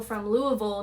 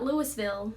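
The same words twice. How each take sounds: First: Louisville said as LOO-uh-vul; local pronunciation. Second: Louisville said as LOO-iss-vil; outsider pronunciation. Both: Shown as a demonstration. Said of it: "not Louisville".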